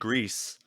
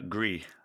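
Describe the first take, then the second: First: The name is said with Spanish pronunciation. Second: The name is said with French pronunciation. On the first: "it's the Spanish pronunciation" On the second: "if it was French, it would be"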